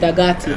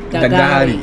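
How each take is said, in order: First: The last consonant is a T sound. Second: The last consonant is an R sound. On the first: Outsiders mispronounce the name this way. The speaker calls it wrong. "down south they like to add the T T T to the languages" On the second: This is how the people themselves say it. The speaker calls it right. "And they speak Dagari"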